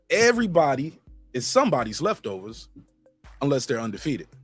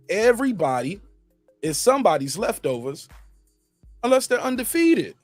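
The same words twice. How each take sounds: First: It is said at normal speed. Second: It is said slowly and deliberately.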